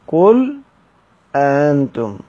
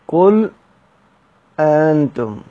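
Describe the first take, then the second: Both takes have the same delivery.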